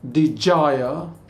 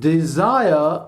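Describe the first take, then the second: First: The middle consonant is a j sound. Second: The middle consonant is a buzzing z sound. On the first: The speaker calls it wrong. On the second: The speaker calls it right.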